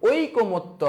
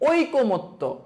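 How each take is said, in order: The two takes are said the same way.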